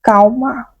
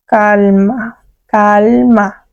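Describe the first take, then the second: First: Calma said "cauma", L turned to U; Brazilian L. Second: Calma with a firm, clear L; clear Spanish L. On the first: Teacher to students, Calma with a Brazilian U-like L. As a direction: soften the L of Calma into a U. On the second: Teacher to students, calma with a clear L. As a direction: pronounce the L in calma fully. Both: Shown as a demonstration. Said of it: "A L é bem pronunciada".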